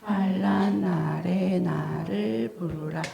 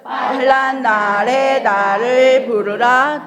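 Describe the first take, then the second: First: It is said in a quiet voice. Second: It is said in a full, normal voice.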